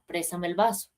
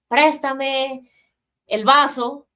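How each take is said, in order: First: It is said calmly and quietly. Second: It is shouted aggressively.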